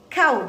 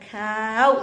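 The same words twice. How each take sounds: First: The vowel is held short. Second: The vowel is drawn out long. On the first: The speaker calls it right. "hanya harus dibaca pendek" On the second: The speaker calls it wrong.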